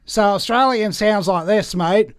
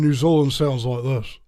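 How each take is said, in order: First: Nasal Australian accent, pitched up and loud. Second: New Zealand accent with a barely moving jaw. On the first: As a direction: push the Australian accent through the nose. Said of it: "in Australia, you use the nasal passages more". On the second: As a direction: keep the jaw tight, New Zealand style. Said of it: "you don't move the jaw as much". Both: Shown as a demonstration.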